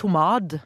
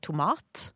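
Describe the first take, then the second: First: The last consonant is a soft d sound. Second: The last consonant is a hard t sound. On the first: The speaker calls it wrong. "Vi sier ikke tomad" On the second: The speaker calls it right. "vi sier tomat"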